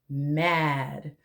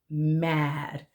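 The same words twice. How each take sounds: No difference in how they are said.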